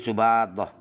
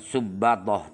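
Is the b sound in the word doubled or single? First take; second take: single; doubled. First: The b sound is short and single. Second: The b sound is held long and doubled. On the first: The speaker calls it right. "ba yang bertitik satu itu dibaca takhfif" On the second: The speaker calls it wrong. "bukan subatoh"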